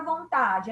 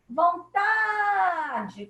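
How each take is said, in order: First: Said in the usual way. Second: "Vontade" called out with a long, high TA; sing-out call of "Vontade", stressed syllable held; calling the word. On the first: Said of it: "vamos chamar a palavra vontade". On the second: Shown as a demonstration. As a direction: stretch the TA of "Vontade" as if calling someone. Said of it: "chamando a palavra como se nós chamássemos uma pessoa".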